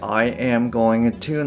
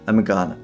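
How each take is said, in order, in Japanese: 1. すべての単語が、それぞれ完全に別々に発音されています。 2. 単語が短くなって、つながって発音されています。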